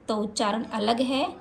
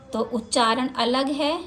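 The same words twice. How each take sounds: The two takes are said the same way.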